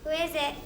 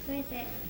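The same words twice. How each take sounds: First: It is said loudly. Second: It is said quietly.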